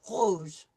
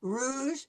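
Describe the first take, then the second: First: "rouge" with the R from the back of the throat; French uvular R. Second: "rouge" with an English R, tongue near the front. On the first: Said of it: "come from the back of my throat". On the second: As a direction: start "rouge" on an American-style English R. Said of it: "If I'm saying it in English". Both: Shown as a demonstration.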